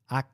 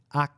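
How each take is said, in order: The two takes are said the same way.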